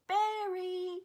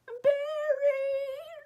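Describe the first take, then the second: First: High mock baby yell; imitating screaming toddler. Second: Very high, loud, long mock shriek; imitating child screaming. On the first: Baby boy at the window after the dog, mock screaming. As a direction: yell it like a tiny kid, high and drawn out. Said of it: "screaming it". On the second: Little girl at her bedroom window after the dog, screaming. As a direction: shriek it out like a crying little kid. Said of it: "Screaming it into the night".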